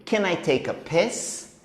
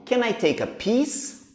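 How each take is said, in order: First: "piss" with a short, lax i vowel; wrong pronunciation. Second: "piece" with a long, tense ee vowel; correct pronunciation. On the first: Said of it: "de pedir pra ir ao banheiro". ("piss" com i curto) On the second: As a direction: say "piece" with a long ee, slowly and clearly. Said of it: "pedir um pedaço de bolo". ("piece" com i longo) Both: Shown as a demonstration.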